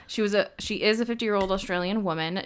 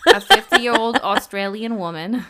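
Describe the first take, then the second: First: Said in the usual way. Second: Louder, laughing mock Australian accent on fifty-year-old Australian woman. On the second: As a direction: ham up an Australian accent while cracking up. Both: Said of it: "No, I'm just kidding".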